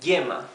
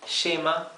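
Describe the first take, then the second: First: The first sound is like English Y. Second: The first sound is like English SH.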